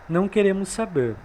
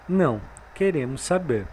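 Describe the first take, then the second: First: There is no pause after não. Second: There is a pause after não.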